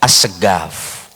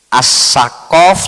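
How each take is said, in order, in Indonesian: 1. Suku kata kedua dimulai dengan bunyi g. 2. Suku kata kedua dimulai dengan bunyi k. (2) "nggak bisa membaca ko, bisanya go"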